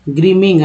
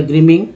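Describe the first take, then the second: First: ग्रीमिंग ending in a nasal इंग; ग्रीमिंग, finish on इंग. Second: ग्रीमिंग with the इंग ending sounded out; ग्रीमिंग, close on इंग. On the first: (ग्रीमिंग का अंत इंग से करें) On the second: (ग्रीमिंग में इंग साफ़ बोलें) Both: Shown as a demonstration. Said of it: "आईएनजी को इंग बोलते हैं".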